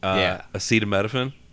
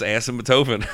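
First: The middle of the word sounds like 'setamino'. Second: The middle of the word sounds like 'symptoto'. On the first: The speaker calls it right. "I just read it wrong" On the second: The speaker calls it wrong. "if you switch those two letters around"

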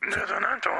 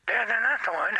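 First: The voice is pitched lower and deeper. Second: The voice is at a higher, normal pitch.

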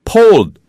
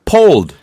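First: The word begins with a P sound. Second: The word begins with a P sound.

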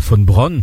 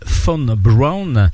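First: It is said with a German accent. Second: It is said with an American accent.

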